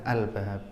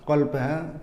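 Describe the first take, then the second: First: The word begins with a glottal stop. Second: The word begins with a deep q sound. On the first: "kof itu bisa dibaca hamzah" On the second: "kolbah dibaca albah bisa"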